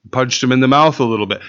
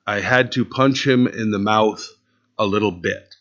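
First: Fast, tossed-off mock echo; mocking repeat. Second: Mock repeat. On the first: Pastor mocking the boy's excuse before the congregation, rattled off fast. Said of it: "No, it isn't a, a little bit". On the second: Pastor repeating the boy's excuse to the congregation, mock disbelief. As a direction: let it sink in, lower and softer. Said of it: "So you punched him in the mouth".

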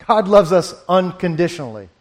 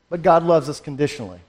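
First: Corrects to "unconditionally" after a small laugh; amused self-correction on "unconditionally". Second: Says "conditionally" by mistake, quick and dropping; fast, quieter misspoken "conditionally"; slip of the tongue. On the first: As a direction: fix the word with a chuckle, "unconditionally". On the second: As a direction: rush "conditionally" before catching the error. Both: Real, not acted. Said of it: "Or, excuse me".

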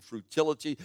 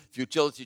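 First: Futility said as "frutility" with an r after the f; mispronounced futility. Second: Said in the usual way. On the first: Shown as a demonstration. Preacher fumbles futility as "frutility". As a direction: slip into "frutility" before correcting it.

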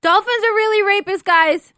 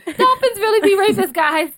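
First: Sudden loud outburst. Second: Mocking the outburst. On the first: Real, not acted. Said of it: "You sound like you have, um, Tourette's". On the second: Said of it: "that was so random".

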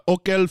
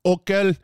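First: Okel with a hard K, a bit higher; Hebrew word. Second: Okel with a hard K, stress on O; Hebrew word. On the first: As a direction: okel said again, corrected. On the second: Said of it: "to eat". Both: Shown as a demonstration.

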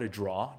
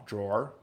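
First: "drawer" as a New York "draw", no final R; New York accent. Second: Said in the usual way. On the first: Shown as a demonstration. Speaker showing listeners his own word, New York accent. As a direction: drop the R off "drawer" like a New Yorker. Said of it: "that's my New York accent". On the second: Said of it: "whatever you call it".

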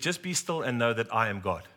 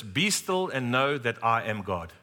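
First: Said in the usual way. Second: Slow, solemn reading of the verse; slow solemn quote. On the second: Retold or imitated. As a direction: let each word land slowly, like scripture. Pastor quotes God's word.

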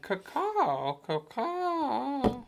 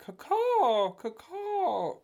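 First: High caw, higher at the end; high bird caw. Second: High throaty caw; shrill screeching bird woman. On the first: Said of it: "it's more up high". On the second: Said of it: "It's more in the throat". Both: Retold or imitated.

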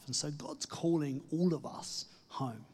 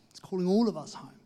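First: Said in the usual way. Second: Louder and higher, ALL stressed; emphatic call. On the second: Acted. Preacher urges listeners home, loud and lifted. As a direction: ring it out like a rallying cry.

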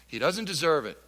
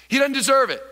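First: Said in the usual way. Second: Loud take. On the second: Shown as a demonstration. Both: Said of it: "Say it".

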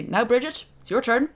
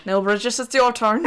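First: High, louder put-on Irish accent of uncertain origin; a vague put-on accent, pitched up; unplaced mock accent. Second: Lightly done Irish accent, drifting toward Cork, laughing; a half-laughing stab at a Kildare accent; attempted Kildare accent. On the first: Nun to Saint Bridget, in an unplaced mock accent. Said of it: "I don't know what accent I was doing there". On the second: Shown as a demonstration. Asked for a Kildare accent, she drifts toward Cork. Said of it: "I think that was more Cork".

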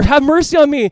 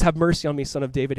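First: Loud, high-pitched desperate plea; crying out more. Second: Said in the usual way. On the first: Acted. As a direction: cry it out over those silencing you. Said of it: "he's crying out more". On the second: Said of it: "He goes".

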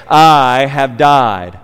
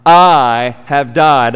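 First: "I" drawn out slow and weighted; stress on I. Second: Slow, heavy "I" at the start; stress on I. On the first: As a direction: lean hard on "I" in "I have died". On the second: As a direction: hit "I" and let the rest fall. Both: Shown as a demonstration. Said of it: "An emphasis on the I".

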